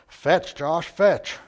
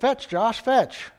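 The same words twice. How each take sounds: First: It is said in a gruff voice. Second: It is said in a plain voice.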